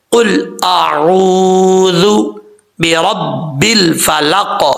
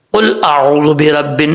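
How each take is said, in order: First: قل اعوذ very slowly, the waw of اعوذ stretched long; correct recitation. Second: قل اعوذ برب with the waw clipped short; wrong recitation. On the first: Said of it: "اس طریقے سے پڑھنا ہے". (قل اعوذ میں واو مدہ لمبا کھینچ کر) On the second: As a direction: say اعوذ without stretching the waw. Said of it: "ایسے نہیں کرنا". (قل اعوذ برب میں واو کو چھوٹا کرکے) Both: Shown as a demonstration.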